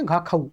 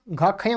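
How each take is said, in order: First: "घ खाऊ" ending in an open -au; correct pronunciation. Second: "घ खयं" ending in -yam; wrong pronunciation. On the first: Teacher correcting his slip for the class, "घ खाऊ" ending in -au. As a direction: say "घ खाऊ" with a final au glide, no m. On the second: Teacher quoting his own slip, "घ खयं" wrongly ending in -yam. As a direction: say "घ खयं" with a nasal-m ending in place of -au. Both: Shown as a demonstration. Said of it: "गलत उत्ता-, उच्चारण कर दिया".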